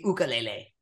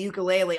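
First: It uses the Hawaiian pronunciation. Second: It uses the usual English pronunciation.

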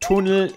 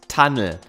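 First: It is pronounced the German way. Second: It is pronounced the English way. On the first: "Tunnel in Englischen heißt" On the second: "Wird genauso geschrieben, wird nur anders ausgesprochen"

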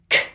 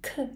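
First: The consonant is released forcefully and long. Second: The consonant is released softly and briefly. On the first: The speaker calls it right. "これくらい強く長く発音してみてくださいね" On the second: The speaker calls it wrong. "クじゃないですよ"

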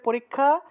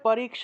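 First: The cluster sounds like a single kh sound. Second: The cluster is split into k plus sh. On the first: This is the Bengali pronunciation. "বাংলায় বললে পরীক্ষা" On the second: This is the Sanskrit pronunciation. "সংস্কৃত উচ্চারণ হবে পরীক্ষা"

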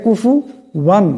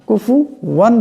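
No difference in how they are said.

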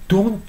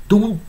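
No difference in how they are said.

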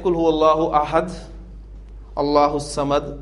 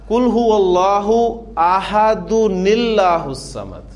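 First: It pauses after ahad before allahu samad. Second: Ahad runs straight into allahu samad, no pause.

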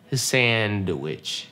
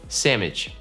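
First: A very light d sound follows the n. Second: The n and d are replaced by an m. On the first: "она очень легкая" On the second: "Носители просто заменяют N и D на букву M"

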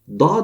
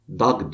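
First: The word ends with a soft, vowel-lengthening ğ. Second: The word ends with a hard g sound. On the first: The speaker calls it right. "dağ demesi gereken" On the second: The speaker calls it wrong. "dag diyor"

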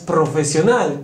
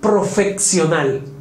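First: The middle consonant is pronounced as plain 's'. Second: The middle consonant is pronounced as 'ks'. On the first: The speaker calls it right. "la palabra correcta es profesional" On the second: The speaker calls it wrong. "cometen errores de dicción como decir profesional"

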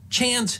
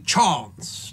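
First: It uses the older, flatter vowel. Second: It uses the upper-class southern English vowel. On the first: This is the earlier pronunciation. "turned chance, dance, and castle into" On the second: This is an affected upper-class form. "an affectation of 18th century upper-class Englishmen in southern England"

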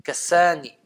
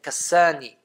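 No difference in how they are said.

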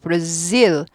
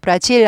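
First: It has a buzzing z sound. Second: It has a Korean-style j sound. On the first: The speaker calls it right. "치아 끝이 좀 떨려야 됩니다" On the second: The speaker calls it wrong. "브라질 아니고"

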